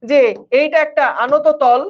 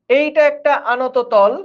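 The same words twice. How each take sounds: First: Said in the usual way. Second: একটা drawn out slowly and leaned on; slow teacherly emphasis on একটা; slow, stressed repeat. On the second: Shown as a demonstration. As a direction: spell out "এইটা একটা আনত তল" slowly, hitting একটা.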